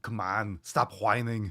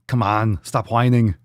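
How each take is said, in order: First: Much softer, muttered mock scold; quiet mock scolding. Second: Firm, louder mock scold. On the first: Host teasing chat about complaining, hushed mutter. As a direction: drop it almost under your breath. Same chant, dropped low. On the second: Host teasing chat about complaining, louder mock scold. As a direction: bark it at the whiners, playfully. Repeating a jokey chant to chat.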